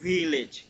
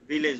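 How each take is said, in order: First: The word begins with a soft v sound. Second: The word begins with an aspirated bh sound. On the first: The speaker calls it right. "এটা উচ্চারণ হবে ভিলেজ।" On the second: The speaker calls it wrong. "ভিলেজ বললে ভুল হবে।"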